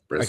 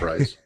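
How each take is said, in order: First: The vowel is a short 'eh' sound. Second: The vowel is a long 'eye' sound. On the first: This is how the other person says the name. "You call him, you call him Bress" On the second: This is how the speaker says the name. "I call him Bryce"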